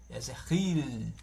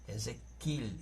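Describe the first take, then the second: First: The middle consonant is a guttural throat sound. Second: The middle consonant is a plain K sound. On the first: "com um som gutural na garganta" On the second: "esse K"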